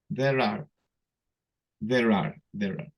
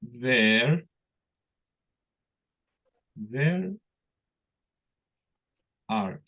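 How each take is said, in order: First: There are blended into one; linked there are. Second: There and are said slowly apart; separated there are. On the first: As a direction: join There and are smoothly. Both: Shown as a demonstration. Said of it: "el there are es algo así".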